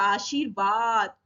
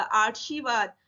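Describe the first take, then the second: First: आशीर्वाद slowly, r right before "vaad"; correct r placement. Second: आशीर्वाद as "aarshivad", r before the sh; mispronounced आशीर्वाद. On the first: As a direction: draw out आशीर्वाद as "aa-shir-vaad". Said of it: "वा से पहले बोला जा रहा है". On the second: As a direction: move the r forward in आशीर्वाद: "aar-shi-vad". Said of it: "ये गलत हो जाएगा". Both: Shown as a demonstration.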